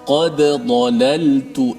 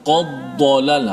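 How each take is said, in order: First: The d is stopped separately with an echo. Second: The d merges into the following dh sound. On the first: The speaker calls it right. "matikan dal tu qalqalah" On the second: The speaker calls it wrong. "jangan qaddalal"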